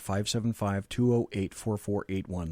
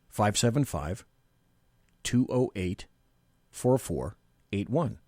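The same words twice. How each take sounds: First: The number is read at a normal, quicker pace. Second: The number is read at a slower pace.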